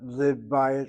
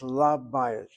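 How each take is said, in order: First: The first vowel is a close i sound. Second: The first vowel is an open a sound. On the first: The speaker calls it wrong. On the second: The speaker calls it right. "So it's"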